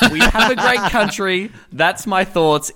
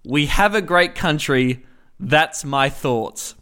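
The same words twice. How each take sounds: First: Slow laughing echo of Trump; Trump quote. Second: Lightly voiced slow Trump, dragging the ending; a hint of Trump, slow and self-satisfied; Trump impression. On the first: Retold or imitated. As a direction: repeat the line with a chuckle, slowly. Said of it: "quoting Trump again". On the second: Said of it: "And Donald Trump replied".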